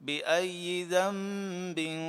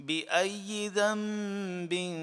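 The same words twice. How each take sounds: No difference in how they are said.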